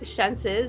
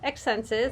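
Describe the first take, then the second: First: The name begins with an 'sh' sound. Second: The name begins with a 'ks' sound. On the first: The speaker calls it right. "Shenses is how it's pronounced" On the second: The speaker calls it wrong. "I always say it wrong"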